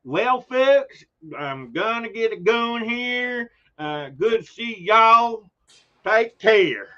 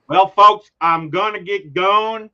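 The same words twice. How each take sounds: First: Slow, high Southern drawl, a New Yorker trying hard; folksy Southern goodbye, stretched out and higher; Southern accent. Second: Drawn-out Southern drawl, higher and louder; a New Yorker faking a Southern farewell; Southern accent. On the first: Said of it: "I can't do Southern accents". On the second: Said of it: "I can just hear his accent". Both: Retold or imitated.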